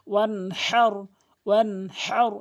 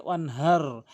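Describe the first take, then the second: First: ওয়ানহার with a strong breathy ha, louder; heavy big ha. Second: ওয়ানহার with a light ha; wrong small ha. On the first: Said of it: "এভাবে বলতে হবে". (বড় হা দিয়ে সঠিক উচ্চারণ) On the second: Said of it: "ছোট হা উচ্চারণ করে ফেলে". (ছোট হা দিয়ে ভুল উচ্চারণ) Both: Shown as a demonstration.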